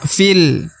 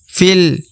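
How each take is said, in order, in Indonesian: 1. Hurufnya langsung menyambung ke l, jadi satu suku kata. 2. Hurufnya langsung menyambung ke l, jadi satu suku kata.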